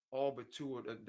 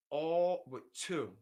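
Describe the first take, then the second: First: Said in the usual way. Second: "all but two" stretched out slowly and louder; slow stress on all. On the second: Real, not acted. To the chat about stolen swaps, slow, louder "all but two".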